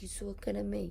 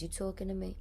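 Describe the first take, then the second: First: Soft, lightly voiced Italian-American wiseguy line; a hint of Italian-American menace, kept quiet; mock Italian-American tough guy. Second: A quiet, lightly voiced De Niro tough-guy line. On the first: Host retells Billy Crystal's Italian-American impression, quietly and lightly. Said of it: "trying to do, like, the Italian vernacular". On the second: Host half-imitates De Niro's famous line, quiet and understated. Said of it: "was it De Niro? He says".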